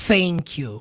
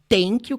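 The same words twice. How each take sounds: First: The first sound is an F sound. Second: The first sound is a T sound. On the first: "não é thank you com som de F" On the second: "não é thank you com som de T"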